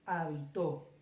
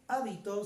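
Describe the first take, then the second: First: The stress is on the last syllable. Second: The stress is on the first syllable. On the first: Someone lived somewhere in the past. "le ponemos en la O" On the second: A habit or custom. "del primer acento en la A"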